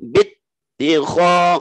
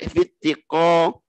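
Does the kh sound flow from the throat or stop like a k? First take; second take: flowing; stopped. First: The kh flows continuously from the upper throat. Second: The kh is cut off like a stopped k. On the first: The speaker calls it right. "Nempel terus ... tenggorokan atas harus mengalir" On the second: The speaker calls it wrong. "jangan sampai bittikho kho, jadi kayak kof nanti"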